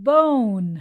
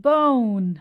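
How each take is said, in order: No difference in how they are said.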